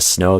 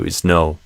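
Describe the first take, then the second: First: It starts directly with the s sound. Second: An extra vowel comes before the s. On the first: "Instead of snow" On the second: "they do isno"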